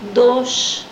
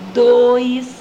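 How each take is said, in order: First: The word has a single vowel, no i glide. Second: The word has a diphthong ending in an i glide. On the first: This is how island locals say it. "pronunciam preferencialmente dos ao invés de dois, é dos, sem o i também" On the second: This is how people elsewhere say it. "ao invés de dois"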